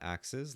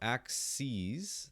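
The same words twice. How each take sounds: First: It sounds like the plural of axe. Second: It sounds like the plural of axis. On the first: It means more than one chopping tool. The speaker calls it wrong. "not axes like chopping axe" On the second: It means more than one graph axis. The speaker calls it right. "that's how you pronounce it"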